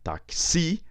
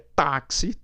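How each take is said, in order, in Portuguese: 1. A tônica está na última sílaba. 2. A tônica está na primeira sílaba. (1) "Se eu não acentuar taxi, ... Terminou em I, outra regra, fica aqui na um" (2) "não, é táxi, táxi tem acento"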